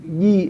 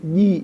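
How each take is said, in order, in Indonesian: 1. Dimulai dengan bunyi 'j' bersuara. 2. Dimulai dengan bunyi 'j' bersuara.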